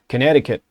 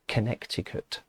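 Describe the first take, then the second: First: It is said in a generic American accent. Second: It is said in a non-American accent.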